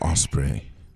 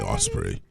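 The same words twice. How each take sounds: First: It is said in his normal voice. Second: It is said in a put-on voice.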